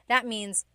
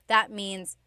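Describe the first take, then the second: The two takes are said the same way.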